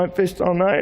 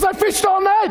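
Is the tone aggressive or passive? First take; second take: passive; aggressive. First: It is said in a meek, self-pitying tone. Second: It is said in a hostile, combative tone. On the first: The speaker is blaming himself for failing. "Maybe he did it passively" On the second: The speaker resents being told what to do. "He got aggressive"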